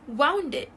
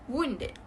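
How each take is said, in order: First: The first syllable sounds like 'wow' plus N. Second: The first syllable does not sound like 'wow'. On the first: The speaker calls it wrong. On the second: The speaker calls it right.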